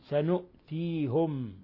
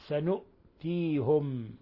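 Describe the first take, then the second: No difference in how they are said.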